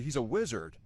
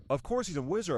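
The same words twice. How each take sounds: First: Said in the usual way. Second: Hagrid R sound. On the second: Retold or imitated. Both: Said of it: "with the R sound".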